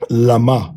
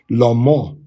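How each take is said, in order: First: The second syllable has an ah vowel. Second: The second syllable has an o vowel. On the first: The speaker calls it wrong. "as opposed to" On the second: The speaker calls it right. "this will be Lamo"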